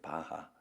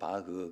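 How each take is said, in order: First: The name ends with a full 'ha' sound. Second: The name ends with a weak 'heu' sound. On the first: This is the form used when the name was introduced in Korea. "한국에 소개될 때 바하라고 소개돼서 바하" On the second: This is the original pronunciation of the name. "원 발음은 바흐"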